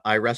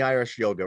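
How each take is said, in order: First: The first word sounds like 'I rest'. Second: The first word sounds like 'Irish'. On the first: The speaker calls it right. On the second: The speaker calls it wrong.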